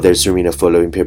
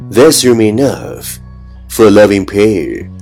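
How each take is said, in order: First: It is spoken very fast in one breath. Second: It is spoken at a slower, even pace.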